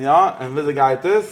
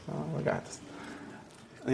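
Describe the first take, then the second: First: Said in the usual way. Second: Slow, breathy whisper of the question; hushed, slow whisper. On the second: Shown as a demonstration. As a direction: ask it under your breath, drawn out.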